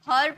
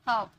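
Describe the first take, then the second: First: The r sound is clearly pronounced. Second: The r sound is silent. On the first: The speaker calls it wrong. "हर्ब नहीं" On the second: The speaker calls it right. "आर generally sound नहीं आता है इसका"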